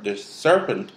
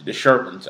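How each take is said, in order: First: Said in the usual way. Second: "serpent" said as "sherpent"; tongue-tied slip. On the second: Shown as a demonstration. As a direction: slur the first sound of "serpent" into SH. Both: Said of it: "I kept saying the serpent".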